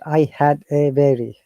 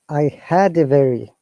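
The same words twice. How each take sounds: First: The words are said separately with breaks. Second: The words are run smoothly together. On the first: The speaker calls it wrong. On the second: The speaker calls it right. "two words should be uh, pronounced together"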